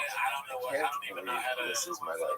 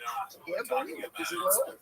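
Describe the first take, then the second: First: It sounds dismayed and weary. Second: It sounds delighted and amazed.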